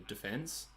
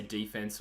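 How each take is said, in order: First: "defense" stressed on the second syllable, duh-FENCE; usual Australian de-FENSE. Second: "defense" stressed on the first syllable, DEE-fense; American-style DEE-fense. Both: Shown as a demonstration. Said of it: "their pronunciation sometimes, whether they say".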